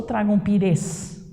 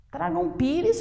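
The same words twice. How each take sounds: First: "pires" stressed on res, the last syllable; shifted final stress. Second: "pires" stressed on pi; correct first-syllable stress. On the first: Teacher tests the wrong option, stressing res in "pires". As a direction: push the accent onto the end of "pires". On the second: Teacher offers the right option, stressing pi in "pires". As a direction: lean on pi in "pires". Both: Shown as a demonstration. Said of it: "Tentem deslocar a sílaba tônica".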